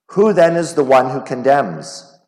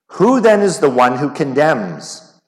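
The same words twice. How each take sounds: No difference in how they are said.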